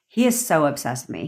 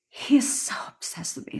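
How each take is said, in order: First: It sounds casual and nonchalant. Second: It sounds pleading and desperate.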